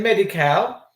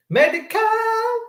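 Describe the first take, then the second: First: Said in the usual way. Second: Medi-Cal in a high, long-held squeal; mocking echo. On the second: Shown as a demonstration. Host jeers at the benefit name in the letter, mocking echo. Mocking a word just read.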